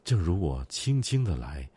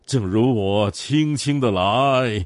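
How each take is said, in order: First: It is recited in a light, gentle way. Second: It is recited in an overdramatic, gushing way.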